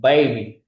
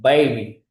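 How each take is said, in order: First: It is said with a British accent. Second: The same.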